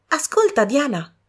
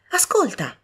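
First: High bright call, urging her sister; eager call to listen. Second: High urging call to listen; eager call. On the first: Young woman urging her sister to listen, eagerly. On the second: Young woman urging her sister again, eagerly. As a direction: insist she listen. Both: A narrator's reading.

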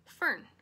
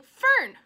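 First: Stern, louder call of the name; stern mother. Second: Sharp high yell of the name; exasperated mother's shout; snapped. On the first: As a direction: cut in as a disapproving mother. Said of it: "said her mother sternly". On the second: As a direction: snap loudly to cut the child off. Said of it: "snapped her mother". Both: Acted.

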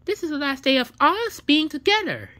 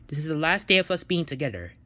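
First: Higher, louder defiant repeat; defiant partner echoing the breakup. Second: Said in the usual way. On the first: Acted. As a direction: throw the words back at them. Other partner echoes it loudly.

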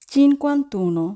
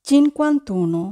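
Both takes have the same delivery.

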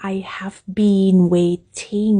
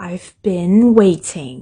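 First: "I have been waiting" every word said out in full; full form. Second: "I've been waiting" with "I've" squeezed short; contracted "I've". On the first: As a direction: spell out each word, no contraction. (พูดเต็มคำ I have) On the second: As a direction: contract it like spoken English. (ย่อคำ I've แบบภาษาพูด) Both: Shown as a demonstration. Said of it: "เวลาภาษาพูดมันจะย่อคำ".

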